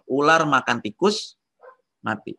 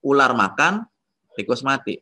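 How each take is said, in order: First: The pause falls after the word tikus. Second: The pause falls after the word makan. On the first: The snake died because it ate a rat. "Jadi gara-gara makan tikus ularnya mati" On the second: The snake is eating while the rat dies on its own. "Ularnya lagi makan, tikusnya mati mati sendiri"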